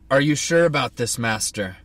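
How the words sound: It is said in a gruff put-on voice.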